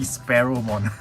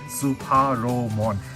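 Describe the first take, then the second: First: The name begins like the bird word sparrow. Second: The name begins with a separate 'su' syllable. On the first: The name comes from the bird species. The speaker calls it right. "It's literally Sparrowmon" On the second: This is how others misread the name. The speaker calls it wrong. "everyone is having a problem reading this guy's name"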